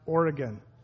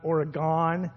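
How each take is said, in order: First: It is said like 'Or-y-gun', ending in 'gun'. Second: It is said without the 'Or-y-gun' ending. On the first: This is how people from that state say it. The speaker calls it right. "It's pronounced Oregon, ... O-R-Y-G-U-N. Because that's how we pronounce it" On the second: This is how outsiders tend to say it. The speaker calls it wrong. "not Oregon"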